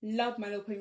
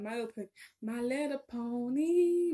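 First: Said in the usual way. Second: Very slow, drawn-out sung title; slow sung jingle; singing the theme. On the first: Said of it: "sings the theme next". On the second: Pretend. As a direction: croon the cartoon theme tune. Sings the show theme.

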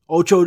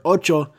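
First: "Ocho" with an English long OH; whitest-person pronunciation. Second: "Ocho" with short, pure Spanish vowels; corrected Spanish pronunciation. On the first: Real, not acted. Ranting podcaster slips on Spanish, anglicized "Ocho". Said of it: "why did I say ocho like so, the fucking whitest person ever?". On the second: Shown as a demonstration. Podcaster corrects own Spanish slip, Spanish-sounding "Ocho". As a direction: say "Ocho" as OT-cho, no English glide. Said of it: "why did I say ocho like so".

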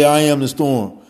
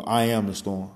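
First: I am the storm, much louder and higher, with a falling ending; declared loudly. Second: Said in the usual way. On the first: Shown as a demonstration. Speaker showing how to meet the storm, loud proclamation. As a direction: proclaim it like a battle cry. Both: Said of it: "you gotta say".

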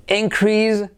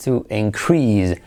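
First: INcrease, slow, IN high; stress on first syllable. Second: To inCREASE, slow and falling; stress on second syllable. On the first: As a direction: punch IN in increase and take it slowly. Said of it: "el nombre". (increase lento, con la primera sílaba acentuada) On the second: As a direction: stretch CREASE in increase. (increase lento, con acento en la segunda sílaba) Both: Shown as a demonstration.

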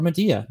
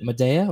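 First: Medea with DEE in the middle; Medea as "muh-DEE-uh". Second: Medea with DAY in the middle; Medea as "muh-DAY-uh". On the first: Giving voters the other choice, Medea as "muh-DEE-uh". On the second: Putting the debate question to voters, Medea as "muh-DAY-uh". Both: Shown as a demonstration. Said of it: "What is it, Medea or Medea?".

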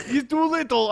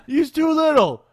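First: Put-on Eastern European accent. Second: A louder, hammed-up Eastern European accent on "He's too little"; retry the Eastern European accent, pushing it harder. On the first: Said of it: "in his Eastern European accent". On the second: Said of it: "I can't do an Eastern European accent whatsoever".

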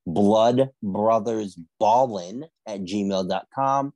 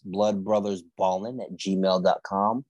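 First: Slow down so listeners can write it down; slow and clear. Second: Said in the usual way. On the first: Shown as a demonstration. Host repeating the email for listeners, slow and deliberate. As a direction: spell out the email slowly, word by word.

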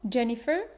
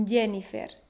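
First: Jennifer said with an English J, as in jam; rising Jennifer with the English J sound; original English pronunciation. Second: Jennifer as YE-ni-fer, every vowel clear; Spanish pronunciation. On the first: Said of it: "El sonido Y". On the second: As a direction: soften the J of Jennifer to Y, full vowels. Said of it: "cambiar el sonido Y por Y". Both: Shown as a demonstration.

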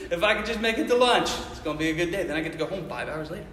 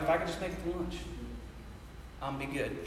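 First: Chuckling through the wish; amused retelling of the lunch wish; laughing. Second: Low, quiet muttered wish to himself; hushed low office daydream mutter. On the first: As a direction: laugh your way into the line. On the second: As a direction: mumble it under your breath, much softer. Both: Retold or imitated. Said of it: "you're like".

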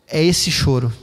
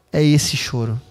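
No difference in how they are said.

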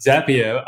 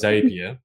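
First: Zapier drawn out slowly and higher; other speaker's pronunciation. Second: Zapier in the speaker's own pronunciation. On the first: Host echoes guest on a tool name, Zapier in guest's pronunciation. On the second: Host compares pronunciations with guest, Zapier said the host's own way. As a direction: say Zapier your own way, contrasting the other version. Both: Shown as a demonstration. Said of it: "I, I pronounce as Zapier".

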